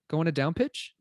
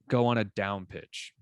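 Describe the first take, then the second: First: The pitch rises at the end of the phrase. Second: The pitch falls at the end of the phrase. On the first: The speaker calls it wrong. "like it just sounds so dumb" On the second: The speaker calls it right. "So I just barely did it there"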